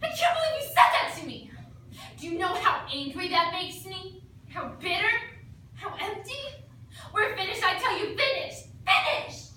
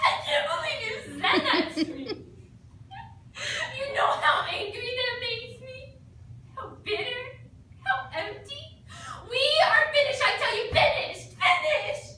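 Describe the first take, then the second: First: Mock furious rant, higher and louder at the end; hammed-up angry breakup speech; emotional outburst. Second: Higher, louder, laughing through a fake sob; badly faked tearful outburst; fake crying. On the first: Actor hurls a mock-furious breakup speech at the partner. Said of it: "Any good dramatic duet requires an emotional outburst". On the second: Actor redoes the outburst with a laughing fake cry. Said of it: "it's recommended that you cry".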